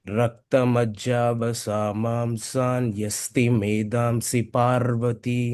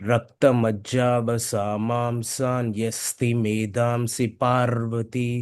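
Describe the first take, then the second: The two takes are said the same way.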